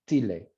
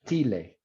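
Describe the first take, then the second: The two takes are said the same way.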